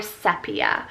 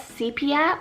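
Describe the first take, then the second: First: "sepia" said SEP-ee-uh; short-e pronunciation. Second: "sepia" said SEE-pee-uh; long-e pronunciation. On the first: Vlogger showing the other way to pronounce it, "sepia" as SEP-ee-uh. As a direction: open "sepia" with a short e, as in step. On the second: Vlogger showing a way to pronounce the name, "sepia" as SEE-pee-uh. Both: Shown as a demonstration. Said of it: "Two ways you can pronounce this".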